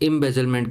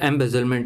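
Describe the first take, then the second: First: The first vowel sounds like 'im'. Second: The first vowel sounds like 'em'. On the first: Some people use this form. "कई लोग इम्बेजलमेंट भी प्रयोग करते हैं" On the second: This is the usual form. "एम्बेजलमेंट generally बोला जाता है"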